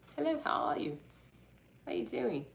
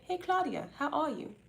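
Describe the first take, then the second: First: It is said in a put-on accent. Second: It is said in her normal voice.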